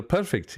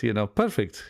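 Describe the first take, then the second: First: "perfect" lifted high, falling, in his Indian-English lilt; a light copy of how Ganesh says "perfect"; imitating teacher's lilt. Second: Said in the usual way. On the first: Copying his teacher Ganesh on the phone, lilting high fall. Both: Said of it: "there's a way he sounds".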